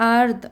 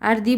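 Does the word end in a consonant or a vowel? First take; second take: consonant; vowel. First: The word ends on the bare consonant. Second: The word ends with an added final vowel. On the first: The speaker calls it right. "কারণ এখানে আমরা থেমে যাব" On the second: The speaker calls it wrong. "আর দি বলবো না"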